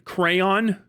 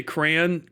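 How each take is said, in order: First: Crayon in two full syllables, "cray-on"; two-syllable pronunciation. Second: Crayon squashed into one syllable, "cran"; own regional pronunciation. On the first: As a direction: say crayon as "cray-on", a touch higher. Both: Shown as a demonstration. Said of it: "'cause I say crayon".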